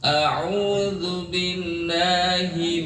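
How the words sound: The sound comes out freely through the mouth. The speaker calls it right. "Keluar dari mulut"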